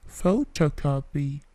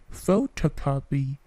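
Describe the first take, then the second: Both takes have the same delivery.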